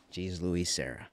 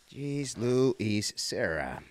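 First: Said in the usual way. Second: "Jeez Louise Serra" stretched out slowly, every syllable drawn long. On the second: Shown as a demonstration.

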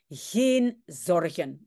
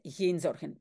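First: Slow geen zorgen with a French-style g; the general's geen zorgen, slowly; accented geen. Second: Geen with a throaty Dutch g; correct Dutch geen. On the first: Acted. Teacher reads the general's geen zorgen the way it's written. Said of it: "Ici, il y a écrit geen zorgen". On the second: Shown as a demonstration. Teacher corrects geen zorgen to proper Dutch. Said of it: "mais c'est geen zorgen".

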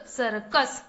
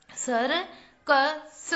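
First: Said in the usual way. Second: circus stretched slowly as सर्-कस; syllable by syllable. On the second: Shown as a demonstration. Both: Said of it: "चलिए बच्चों, पढ़ते हैं।".

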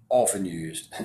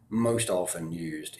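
First: Said in the usual way. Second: MOST often used, slow; stress on most. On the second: Shown as a demonstration. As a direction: lean into MOST, slowly.

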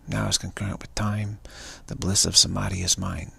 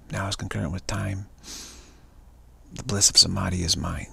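Both takes have the same delivery.

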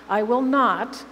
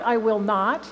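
First: I will not, with not punched and a bit louder; stress on NOT. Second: I will not, with I lifted on a rising tune; stress on I. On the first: Preacher repeating God's promise, stress on not. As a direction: hit the word not hard. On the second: Preacher reading God's promise, stress on I. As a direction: lean on I, rising toward not. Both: Shown as a demonstration. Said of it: "it's an emphatic triple negative".

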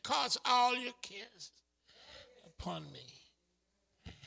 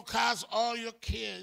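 First: Gentle divine promise. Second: Said in the usual way. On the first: Acted. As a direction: soothe them with God's words. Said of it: "He said".

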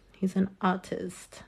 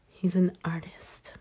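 First: Plain. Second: Unvoiced whisper of He's an artist. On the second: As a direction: whisper it like a proud secret. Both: Shown as a demonstration.

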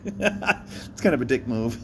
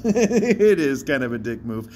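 First: Said in the usual way. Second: "is" pulled out and stressed, a touch louder. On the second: Shown as a demonstration. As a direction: lean hard on "is".

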